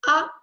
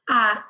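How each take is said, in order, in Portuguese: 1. A vogal é curta. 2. A vogal é longa.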